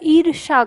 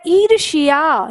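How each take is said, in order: First: No 'y' sound follows the 'sh' sound. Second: A 'y' sound follows the 'sh' sound. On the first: This is the later simplified form. "या का उच्चारण गायब कर दिया" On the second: This is the original Sanskrit form. "या का उच्चारण उसमें आता है"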